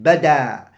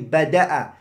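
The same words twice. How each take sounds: First: The word ends with a long vowel. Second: The word ends with a glottal stop. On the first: It means it became apparent. "you can say it with an ألف" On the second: It means it began. "The first one is بدأ بالهمزة"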